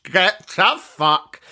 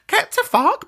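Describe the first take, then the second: First: Very slow, every word stretched; drawn-out mock dismissal. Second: High-pitched, exasperated outburst; mock outraged dismissal. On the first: Dismissing a pricey present request, slow mock outrage. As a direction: stretch it out in scornful disbelief. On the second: Scoffing at pressure to buy presents, mock outrage. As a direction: pitch it way up, indignant.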